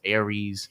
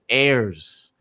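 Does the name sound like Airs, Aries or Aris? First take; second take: Aries; Airs. First: The name is said like the word 'Aries'. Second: The name is said as one syllable, 'Airs'. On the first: The speaker calls it wrong. "Some people say Aris, Aries" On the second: The speaker calls it right. "It is Airs"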